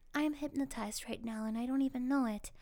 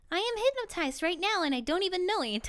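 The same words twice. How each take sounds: First: The voice is flat and dazed. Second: The voice is bright and cheerful. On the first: "but this time in a hypnotized voice" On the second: "Say the following in a cheerful voice"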